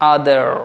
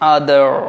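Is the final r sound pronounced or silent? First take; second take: pronounced; pronounced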